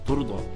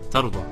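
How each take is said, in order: First: The first vowel is a rounded 'u' sound. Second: The first vowel is an open 'a' sound. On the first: You will be made pleased, or be approved of. "Ada juga yang baca dengan turdha" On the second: You will be pleased with what is given to you. "Tardha ni dibaca dengan fathah, fathah ta"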